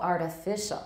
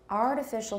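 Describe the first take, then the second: First: The stress falls on the third syllable. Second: The stress falls on the first syllable. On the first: The word stands alone at the end of a phrase. "It's usually artificial" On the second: The word comes right before a stressed noun. "But in artificial snow, it's on the first"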